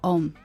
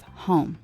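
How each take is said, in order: First: The word starts without an h sound. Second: The word starts with a clear h sound.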